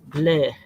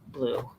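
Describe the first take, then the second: First: It is said with a French accent. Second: It is said with a plain English accent.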